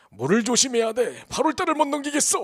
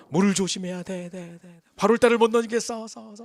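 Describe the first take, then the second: First: A stranger monk foretelling disaster; ominous monk's warning. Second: Haunting echo. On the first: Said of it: "하고 가버렸어요". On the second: The grandfather hears the warning echo in his head as he lies awake. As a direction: replay the monk's words like an echo in a nightmare. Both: Retold or imitated.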